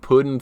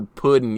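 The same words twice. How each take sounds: First: "pudding" said the Alabama way, as "puddin'"; "pudding" as a Southerner's "puddin'"; Alabama pronunciation. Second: Said in the usual way. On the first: Shown as a demonstration. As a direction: say "pudding" Southern-style, dropping the g. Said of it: "My friend Ben from Bama say". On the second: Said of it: "that's the type of stuff I try to avoid".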